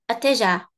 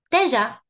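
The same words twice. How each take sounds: First: The first vowel is said faintly and quickly. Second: The first vowel is not said at all. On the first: "the first sound, it's there, but it's low" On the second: "I just don't pronounce it at all"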